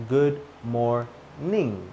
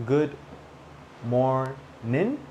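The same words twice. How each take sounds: First: Slow GOOD MORNING syllable by syllable, ending "ning". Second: GOOD MORNING in separate pieces, ending "nin". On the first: Teacher contrasting two ways, MORNING as slow "mor-ning". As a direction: separate each syllable, MORNING closing on NG. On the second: Teacher contrasting two ways, MORNING as "mor-nin". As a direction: split MORNING and end it on plain N. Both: Shown as a demonstration. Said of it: "say it in two different ways".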